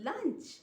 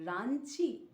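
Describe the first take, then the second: First: It is said with a clear English L sound. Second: It is said Japanese-style, with R and final vowel.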